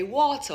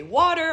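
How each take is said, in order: First: Water said the American way, with the R at the end; plain American accent on water. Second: Water said the Jamaican way, wata with a dropped R. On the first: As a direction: give water with an American R ending. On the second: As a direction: give water in Patois, wata with no R. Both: Shown as a demonstration. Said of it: "I have these two different routes".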